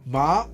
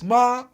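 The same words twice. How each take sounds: First: The syllable is said with the second tone. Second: The syllable is said with the first tone. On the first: It means numb. "second tone means numb" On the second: It means mom. "first tone means mom"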